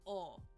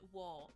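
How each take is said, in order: First: The syllable is a bare o vowel. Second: The syllable begins with a w sound. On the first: The speaker calls it right. "we pronounce it o" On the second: The speaker calls it wrong. "We don't pronounce it wo"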